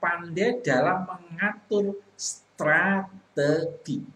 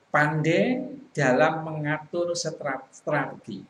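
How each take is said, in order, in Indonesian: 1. Frasa itu diperlambat, suku katanya hampir dieja. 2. Frasa itu dibaca datar dengan kecepatan normal. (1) "seperti dieja" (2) "kalau kita membaca itu datar-datar saja"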